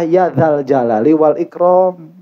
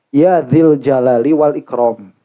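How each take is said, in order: First: The vowel after dh is an a sound. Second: The vowel after dh is an i sound. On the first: The speaker calls it right. "bukan ya dzil jalali wal ikram" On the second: The speaker calls it wrong. "dengan zal yang dikasrohkan"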